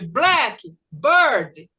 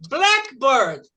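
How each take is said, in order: First: Both parts carry equal strong stress. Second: Only the first part carries strong stress. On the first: The speaker calls it wrong. "vamos falar as duas fortes? ... que fica ridiculous" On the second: The speaker calls it right. "A primeira palavra vai puxar"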